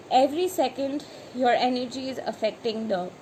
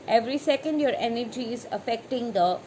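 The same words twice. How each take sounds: The two takes are said the same way.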